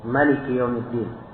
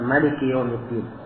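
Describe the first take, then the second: First: The first vowel of Maliki is short. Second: The first vowel of Maliki is short.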